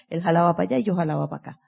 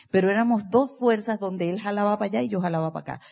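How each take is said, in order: First: The same line rattled off very fast; rapid repeat. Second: Said in the usual way. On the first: Acted. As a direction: rush it out in one breath. Repite la frase a toda prisa. (repetido a toda velocidad)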